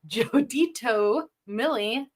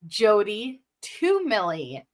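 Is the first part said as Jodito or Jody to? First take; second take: Jodito; Jody to. First: The first part is said as Jodito. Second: The first part is said as Jody to. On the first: The speaker calls it wrong. "I have been saying Jodito Millie" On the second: The speaker calls it right. "when the name is Jody to Millie"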